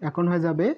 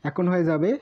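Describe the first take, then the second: Both takes have the same delivery.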